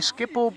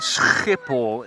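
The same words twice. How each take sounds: First: It is said with English sounds, a soft start. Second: It is said with a harsh, throaty Dutch g. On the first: "in English you say Schiphol" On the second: "in Dutch you say Schiphol"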